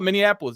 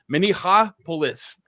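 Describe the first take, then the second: First: It is said without an h sound. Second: It is said with an h sound. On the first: This is how people usually say it now. The speaker calls it wrong. "Now we call it Minneapolis" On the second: This follows the original word for waterfall. The speaker calls it right. "It should be Minneapolis. That's how you say Minneapolis"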